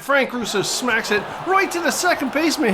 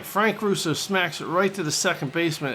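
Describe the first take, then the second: First: High, loud live call of the hit; excited call. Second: Said in the usual way. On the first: Real, not acted. Gamer calling his hitter's big swing live, excited. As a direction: call the hit as it happens, thrilled.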